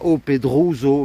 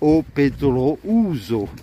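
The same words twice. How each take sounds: First: The o and u merge into one vowel sound. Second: The o and u are each sounded separately. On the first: The speaker calls it wrong. "On ne dit pas O Pedrouso" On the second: The speaker calls it right. "on prononce toutes les lettres"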